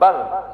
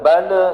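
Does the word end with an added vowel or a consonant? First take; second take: consonant; added vowel. First: The word ends cleanly on the consonant. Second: The word ends with an extra vowel sound. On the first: The speaker calls it right. "harus jelas" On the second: The speaker calls it wrong. "jangan bala"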